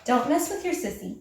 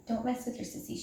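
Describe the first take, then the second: First: Said in the usual way. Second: Hushed warning so the kitten sleeps. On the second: Real, not acted. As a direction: drop to a hush, sister is sleeping. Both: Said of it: "She's sleeping".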